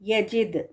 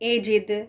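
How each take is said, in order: First: The word begins with a clear 'ya' sound. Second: The word begins with an 'e' sound. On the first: The speaker calls it right. "या है ये" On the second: The speaker calls it wrong. "ए नहीं"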